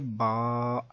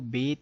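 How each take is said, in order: First: The letter name ends in an Arabic 'a' vowel. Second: The letter name ends in an Urdu 'e' vowel. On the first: The speaker calls it right. "अरबी लेवल लहजे के मुताबिक ... बा, ता, सा ऐसे होगा" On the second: The speaker calls it wrong. "Urdu तलफ़ुज़ से परहेज़ करें"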